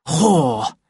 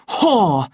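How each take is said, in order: First: Understated curse, a little raised; angry self-talk. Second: Loud, raised burst of fury; angry shout. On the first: Savage pacing alone in anger, cursing to himself. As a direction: spit it out to himself. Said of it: "he repeated to himself". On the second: Savage shaking Lenina by the shoulders, furious shout. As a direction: hurl the word out as an accusation. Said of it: "he shouted". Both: A narrator's reading.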